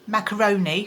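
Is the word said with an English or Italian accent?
English. It is said with an ordinary English accent. "instead of saying"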